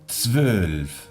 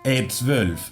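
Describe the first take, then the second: First: The word starts directly with its consonant cluster. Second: An extra e vowel is said before the word. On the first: The speaker calls it right. "intentemos evitar esta E" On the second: The speaker calls it wrong. "es muy típico poner una E. ... Queda muy feo, sucio"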